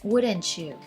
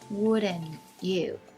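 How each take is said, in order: First: The T and Y blend into a ch sound. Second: The T is dropped before the you. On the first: "The T and the Y sound there is changed to the to the C H sound" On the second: "You drop the T sound in the middle"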